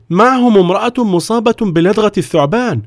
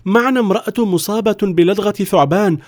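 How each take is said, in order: First: Guard reporting. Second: High, imploring explanation; desperate villager pleading. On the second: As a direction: beg him to let them in. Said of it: "وتوسل إليه أحد الرجال". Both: Acted.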